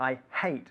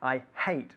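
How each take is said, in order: First: The h in hate is breathed out audibly. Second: The same.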